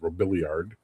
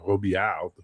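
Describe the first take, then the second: First: The name is said with American pronunciation. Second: The name is said with French pronunciation. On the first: "you're Americans, you pronounce it as" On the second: "his family name is uh"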